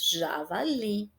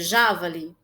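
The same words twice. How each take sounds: First: The stress is on the last syllable. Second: The stress is on the first syllable. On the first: The speaker calls it right. "E nós pronunciamos javali" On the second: The speaker calls it wrong. "se o já fosse mais forte, a pronúncia seria javali?"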